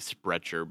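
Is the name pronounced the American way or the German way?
American. The name is said with an American pronunciation. "if you were to say it like an American would be"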